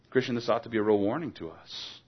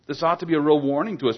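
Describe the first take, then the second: First: Said in the usual way. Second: Higher, louder, fast repeat of "real warning"; urgent preacher's repeat; pressing repeat. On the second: Shown as a demonstration. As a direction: drive the warning home faster.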